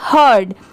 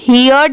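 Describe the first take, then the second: First: The vowel sounds like the one in 'her'. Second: The vowel sounds like 'here' plus a glide. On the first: The speaker calls it right. "इसकी sound क्या आएगी हर्ड" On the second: The speaker calls it wrong. "यहाँ पर इसे हियर्ड नहीं पढ़ेंगे"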